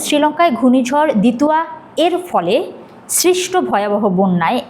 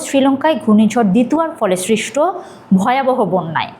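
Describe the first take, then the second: First: The ending 'er' is said apart from 'Dituya'. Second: The ending 'er' is joined smoothly onto 'Dituya'. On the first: The reader seems to be reading mechanically off the page. The speaker calls it wrong. "এভাবে বললে একদমই মনে হবে আপনি দেখে দেখে reading পড়ছেন" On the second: The reader understands and speaks the line naturally. The speaker calls it right. "আমি সরাসরি পড়ব"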